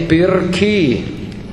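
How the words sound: The R is clearly pronounced before the consonant. This is how the word is said in Rosolini. "Rosolini è pirchi"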